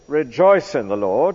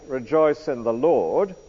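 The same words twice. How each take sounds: First: The stress is on "Rejoice". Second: The stress is on "Lord".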